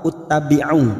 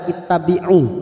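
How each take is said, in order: First: The word begins with a u vowel. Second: The word begins with an i vowel. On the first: The speaker calls it wrong. "atau uttabi'u?" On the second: The speaker calls it right. "Mengapa dibaca ittabi'u?"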